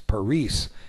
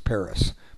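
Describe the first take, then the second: First: It is said with a Spanish pronunciation. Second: It is said with an American English pronunciation. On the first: This is how Spanish speakers name the city. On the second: This is how Americans name the city. "we in America call the capital of France Paris"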